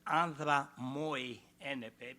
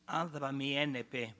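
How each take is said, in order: First: The second word sounds like 'moy'. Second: The second word sounds like 'mee'. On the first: The speaker calls it wrong. "not Andra moi enepe, because in this case you add one more meter" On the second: The speaker calls it right. "by pronouncing in the right way"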